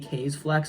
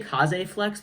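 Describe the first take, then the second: First: The first word has one syllable, kays. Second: The first word has two syllables, kah-zeh. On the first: This is how the name is supposed to be said. The speaker calls it right. "I think it's supposed to be K's Flex" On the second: This is how the name used to be said. The speaker calls it wrong. "I used to say Kaze Flex"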